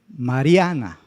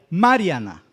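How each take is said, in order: First: The stress is on the middle syllable. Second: The stress is on the first syllable. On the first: The speaker calls it right. "La penúltima" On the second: The speaker calls it wrong. "la antepenúltima, que sería la ma"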